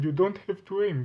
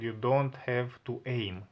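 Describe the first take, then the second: First: It is said in a put-on mocking voice. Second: It is said in the speaker's normal voice.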